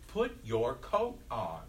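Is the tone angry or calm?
angry. It is said in an angry, commanding tone. The speaker is frustrated and asserting authority. "you're getting angry with these little 4-year-olds ... I'm the grown-up and I'm in charge, so I say"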